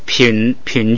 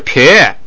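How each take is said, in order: First: The syllable ends in a nasal sound. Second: The syllable ends in a plain vowel. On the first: "把那个上夹子喇呢就也发成n，就成了品种" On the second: "本来是撇，结果它这个只有元音"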